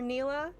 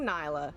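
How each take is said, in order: First: The first vowel sounds like 'ee'. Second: The first vowel sounds like 'eye'. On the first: This is how the game's casters say it. The speaker calls it wrong. "Casters for League of Legends call her Neela" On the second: This is the speaker's preferred way to say it. The speaker calls it right. "that's fucking Nyla"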